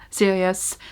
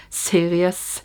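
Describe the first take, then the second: First: Series with a Norwegian accent, rolled r, long final s. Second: Said in the usual way. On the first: Real, not acted. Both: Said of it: "Norwegian accent really came out strong there".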